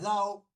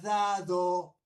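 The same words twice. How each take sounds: First: The d drops and the stress falls last. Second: The stress falls on the first syllable. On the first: "se convierte en aguda" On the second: "la palabra grave"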